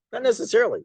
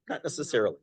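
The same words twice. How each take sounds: First: "Not necessarily." thrown up high and louder; emphatic repeat. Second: Said in the usual way. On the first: Shown as a demonstration. Teacher repeats answer to class, higher emphatic. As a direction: insist on it the second time.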